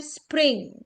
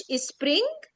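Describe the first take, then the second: First: Spring with no vowel before the s, slowly; correct spring. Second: Spring as ispring, extra vowel at the start; wrong spring. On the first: Spring الصحيحة. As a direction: say spring cleanly. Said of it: "بنقول spring". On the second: Spring الخاطئة بألف. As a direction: add an i before spring. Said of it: "ما بنقولش spring". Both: Shown as a demonstration.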